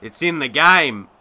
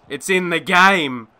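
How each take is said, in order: First: Said in the usual way. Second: Slow, sarcastic slogan delivery; mock slogan read. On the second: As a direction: drawl the ad line with scorn. Mocking the EA slogan.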